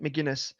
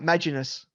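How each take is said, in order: First: The name is said as Mc-Guin-ness. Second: The name is said as Ma-gi-nus. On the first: The speaker calls it right. "no, it's McGuinness" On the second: The speaker calls it wrong. "I always get confused with the pronunciation of"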